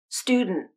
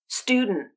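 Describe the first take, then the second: First: D bursts through the nose; the final T is stopped. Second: D bursts through the nose; the final T is stopped.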